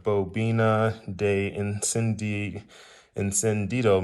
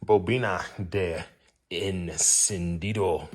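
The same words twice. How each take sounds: First: Spanish accent. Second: Rolled, careful Spanish vowels on bobina de encendido; Spanish accent. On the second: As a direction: say bobina de encendido slowly like a native Spanish speaker. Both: Shown as a demonstration. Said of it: "You like my Spanish accent".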